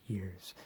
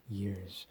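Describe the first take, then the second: No difference in how they are said.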